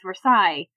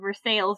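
First: It is pronounced the French way. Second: It is pronounced the local American way. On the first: It names the place in France. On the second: It names the town in Missouri.

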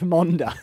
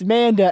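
First: The name does not sound like the end of Amanda. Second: The name sounds like the end of Amanda. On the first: The speaker calls it wrong. "not Manda" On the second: The speaker calls it right. "it's Manda as in Amanda"

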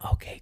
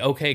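First: It is said in a careful whisper. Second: It is said in a normal voice.

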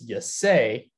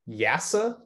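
First: The name ends rhyming with 'say'. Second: The name ends rhyming with 'NASA'. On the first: The speaker calls it wrong. "which I thought was Yasay, like you say" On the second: The speaker calls it right. "it's actually Yasa, like NASA"

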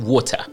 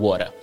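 First: It is said with a British accent. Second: It is said with an American accent.

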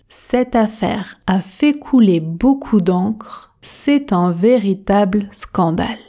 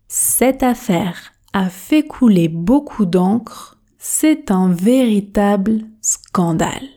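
Both takes have the same delivery.

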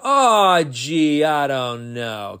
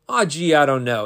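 First: It is said slowly and sadly. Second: It is said sadly but fast.

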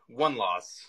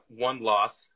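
First: It is said at a normal, softer volume. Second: It is said at a louder volume.

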